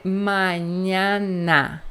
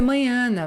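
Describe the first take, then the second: First: Mañana slow, every a open; correct Spanish mañana. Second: Mañana rushed with closed Portuguese vowels; wrong mañana. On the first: Teacher giving the right Spanish mañana. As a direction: draw out mañana clearly. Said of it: "vai ser mañana". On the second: Teacher mimicking a student's mistake. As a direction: say mañana like a Brazilian learner. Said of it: "não vai ser mañana". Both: Shown as a demonstration.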